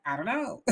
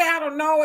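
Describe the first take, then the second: First: Much softer, trailing I don't know; quiet blank shrug. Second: Said in the usual way. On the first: Shown as a demonstration. Showing Al what his head does, quiet blank shrug. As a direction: let "I don't know" fall away softly as if the mind draws a blank. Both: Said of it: "So it's like".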